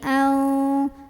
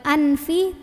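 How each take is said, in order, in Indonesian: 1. Huruf n kabur dengan dengung sengau. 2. Huruf n diucapkan dengan jelas dan penuh. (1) "dibunyikan samar-samar menuju huruf fa ... sambil ada dengungannya" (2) "bukan anfi"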